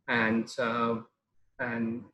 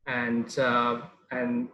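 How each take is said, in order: Both takes have the same delivery.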